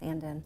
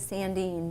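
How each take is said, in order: First: The name is said the American way. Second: The name is said the old Swedish way. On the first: This is the form used after emigrating. "when we came to America, it's Sandin" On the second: This is the original form from the old country. "the old Swedish is Sandine"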